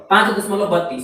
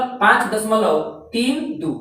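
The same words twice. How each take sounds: First: "बत्तीस" said as one joined number; digits read together. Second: Slow, "तीन दो" as two separate digits; name each decimal digit apart: "तीन", then "दो"; digits read separately. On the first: Teacher showing students the wrong reading, "बत्तीस" as one number. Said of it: "ये गलत पढ़ रहे हैं". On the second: Teacher showing students the correct reading, "तीन दो" digit by digit. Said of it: "अलग-अलग". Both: Shown as a demonstration.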